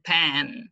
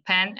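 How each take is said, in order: First: "pan" with an open a, as in "cat"; minimal pair. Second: "pen" with a mid e, as in "bed"; minimal pair. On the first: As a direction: open the vowel of "pan" wide. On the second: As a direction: say "pen" distinct from "pan". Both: Shown as a demonstration. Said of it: "So they are different words".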